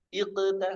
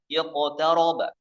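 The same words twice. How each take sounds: First: Iqta with a heavy q, pitched up; wrong thick q. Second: Iqtaraba with a full heavy q; correct full thick q. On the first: Teacher showing forbidden tafkhim nisbi. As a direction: overthicken Iqta, the mistake. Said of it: "nggak boleh ya". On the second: Teacher modelling kept thickness. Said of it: "tebal, tetap ya". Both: Shown as a demonstration.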